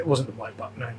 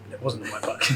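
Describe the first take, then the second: First: Said in the usual way. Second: Laughing. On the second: Real, not acted.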